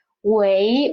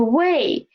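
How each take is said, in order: First: 喂 with a rising, questioning tone; 喂 climbing like a question; second tone. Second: 喂 with a falling tone; 喂 falling in fourth tone. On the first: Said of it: "the second tone of this word". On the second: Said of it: "the first tone". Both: Shown as a demonstration.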